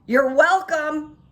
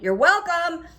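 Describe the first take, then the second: First: "You're welcome" loud, high and slow, dripping sarcasm; sarcastic you're welcome. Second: "You're welcome" loud and high, pointed sarcasm; sarcastic you're welcome. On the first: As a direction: call it out pointedly after her. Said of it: "this is what came out of my mouth". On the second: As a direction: fling it after the rude shopper. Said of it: "I just went". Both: Retold or imitated.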